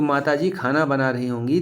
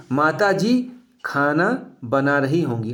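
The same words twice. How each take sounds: First: Said in the usual way. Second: Slow, deliberate example read; slow example sentence. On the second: Shown as a demonstration. Teacher reading an example to students, slowly. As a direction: say it slowly so students catch the doubt. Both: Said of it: "ध्यान से सुनेंगे".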